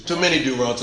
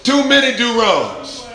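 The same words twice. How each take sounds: First: Said in the usual way. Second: Higher, louder, slower; a preacher's loud lament; emphatic. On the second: Shown as a demonstration. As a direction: lean hard into "Too many do-wrongs". Repeated line, emphatic take.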